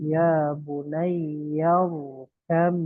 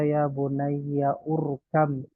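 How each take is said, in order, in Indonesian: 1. Rkam disambung langsung dengan kata sebelumnya. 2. Vokal u tersendiri diucapkan sebelum rkam. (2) "bukan dibaca"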